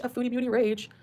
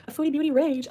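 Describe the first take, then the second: First: Softer, landing on "rage"; softer repeat. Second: Higher, stress on foodie; mock headline. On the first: Repeating the clickbait title to herself, softer. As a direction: let "rage" fall, quieter. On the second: Mocking the reactors' clickbait, higher on "foodie". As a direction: announce "foodie" like a video title. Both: Shown as a demonstration. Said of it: "watch how many people use this".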